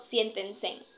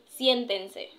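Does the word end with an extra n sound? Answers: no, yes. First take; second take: yes; no. First: The word ends with an added n sound. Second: The word ends in a vowel sound, with no n. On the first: The speaker calls it wrong. "más no siéntense, terminando en N" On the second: The speaker calls it right. "y es siéntense"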